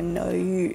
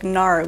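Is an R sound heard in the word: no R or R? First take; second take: no R; R. First: The word is said with an OU vowel sound. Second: The word is said with an R sound. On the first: The speaker calls it right. "it's an OU sound. It's like a no U" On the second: The speaker calls it wrong. "they think that it's like Nara with an R"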